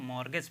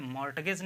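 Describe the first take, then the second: First: मॉर्गेज said with no T sound; silent T. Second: मॉर्टगेज with the T pronounced; sounded T. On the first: Teacher showing learners the silent letter, मॉर्गेज without its T. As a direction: say मॉर्गेज, dropping the T. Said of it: "टी silent है, इसको हम मॉर्गेज पढ़ेंगे". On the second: Teacher showing learners the mistake, मॉर्टगेज with a T. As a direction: say मॉर्टगेज, voicing the written T. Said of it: "मॉर्टगेज नहीं कहेंगे आप". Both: Shown as a demonstration.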